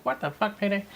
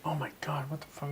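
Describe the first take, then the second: First: High mimicked echo of swearing; Cordelia. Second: Hushed, barely voiced mock exasperation; retold annoyance. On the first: Retelling how she echoed the swearing, high mimicry. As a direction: copy it back in a high, soft voice. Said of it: "And she'd be like". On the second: Retelling getting mad while driving around, hushed mock annoyance. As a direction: mimic being mad, very softly. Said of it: "I'd get mad in school and be like".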